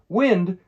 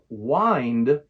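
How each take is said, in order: First: The vowel is a short i sound. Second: The vowel is a long i sound. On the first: It refers to the movement of air. "This is the short I sound" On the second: It means to twist or turn something. "This uses the long I sound"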